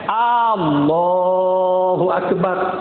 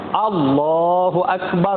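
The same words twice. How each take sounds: First: The first vowel in Allahu is drawn out long. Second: The first vowel in Allahu is short. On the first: The speaker calls it wrong. "Bukan Allahu akbar. Ada orang sebut macam tu. Tak betul" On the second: The speaker calls it right. "Alif tu pendek"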